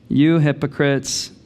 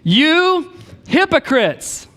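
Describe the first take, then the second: First: It is said in a flat monotone. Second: It is said with lively, emotional energy. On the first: The speaker calls it wrong. "if you read it in a monotone voice" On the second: The speaker calls it right. "More like this"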